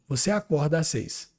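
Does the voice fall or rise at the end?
falls. The voice falls at the end. It states a fact.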